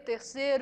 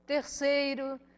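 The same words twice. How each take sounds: First: The middle i sound is dropped. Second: The middle i sound is clearly heard. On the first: The speaker calls it wrong. "preguiça de pronunciar Is intermediários" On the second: The speaker calls it right. "em vez de dizer"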